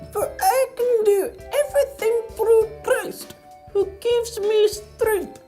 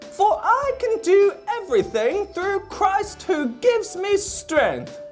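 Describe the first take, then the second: First: It is said in a tiny ant voice. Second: It is said in a normal voice.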